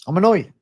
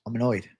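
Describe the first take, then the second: First: Louder, higher burst of real annoyance; fed-up streamer venting; annoyed outburst. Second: Said in the usual way. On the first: Real, not acted. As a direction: snap out I'm annoyed with real irritation. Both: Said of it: "Oh, I'm annoyed now".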